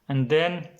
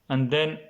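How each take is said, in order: The two takes are said the same way.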